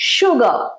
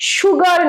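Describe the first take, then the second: First: The final r sound is left silent. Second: The final r sound is clearly pronounced. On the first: The speaker calls it right. "রটা use করবে না" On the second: The speaker calls it wrong. "Pronunciation কিন্তু সুগার নয়"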